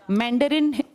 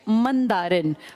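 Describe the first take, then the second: First: The word has an English pronunciation. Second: The word has a Hindi pronunciation.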